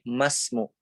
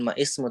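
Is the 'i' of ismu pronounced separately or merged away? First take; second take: merged away; separately. First: The m runs straight into the s. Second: The vowel of ismu is sounded separately. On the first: The speaker calls it right. "tapi masmu" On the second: The speaker calls it wrong. "bukan ma ismu"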